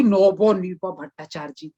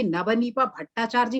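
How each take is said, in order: First: Bengali-style rounded o in "नवनीपा", like "नोबोनीपा"; Bengali accent. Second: Said in the usual way. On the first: Retold or imitated. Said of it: "वो इतना कर देगी, ओ, ओ, ओ लगा". ("नवनीपा" बंगाली लहजे में, अ की जगह गोल ओ) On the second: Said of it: "मैं कहूंगी नवनीपा भट्टाचार्य जी".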